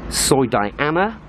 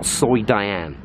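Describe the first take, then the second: First: DIANA with a final AH, drawn out and rising; three-syllable Diana. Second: DIANE in two syllables, drawn out and falling; shortened Diane. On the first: Vlogger listing a street's names, three-syllable Diana, rising. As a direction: say Soi Diana slowly, ending on a lifted -na. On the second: Vlogger giving a street's shortest name, two-syllable Diane, falling. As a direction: say Soi Diane slowly, with no final A. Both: Shown as a demonstration. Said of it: "people pronounce it different ways".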